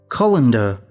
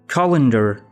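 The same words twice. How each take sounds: First: It is said in a British accent. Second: It is said in an American accent. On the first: "British accent" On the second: "American accent"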